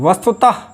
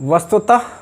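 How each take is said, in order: Both takes have the same delivery.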